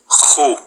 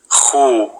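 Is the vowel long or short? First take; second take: short; long. First: The vowel after kh is short. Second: The vowel after kh is drawn out long. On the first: "with a dhamma above it" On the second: "with the long vowel waw"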